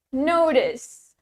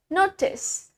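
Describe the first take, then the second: First: The middle consonant is a soft D sound. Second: The middle consonant is a clear T sound. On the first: "Now, American" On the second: "starting from the British"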